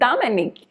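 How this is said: The name is said with a French pronunciation. "the French pronunciation that they say in Martinique is"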